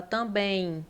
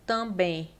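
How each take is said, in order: First: "também" with a clear "ẽj" glide at the end; right way. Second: "também" ending in a plain "e", with no I glide; wrong way. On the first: Teacher showing students the right way, "também" with the glide. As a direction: let the final vowel of "também" slide into an I. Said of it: "você fala também". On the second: Teacher showing students the wrong way, "também" without the glide. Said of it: "Você não fala também". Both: Shown as a demonstration.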